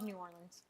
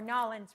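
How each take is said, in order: First: The name is pronounced in full, syllable by syllable. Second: The name is clipped in the local accent. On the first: The speaker calls it wrong. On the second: The speaker calls it right.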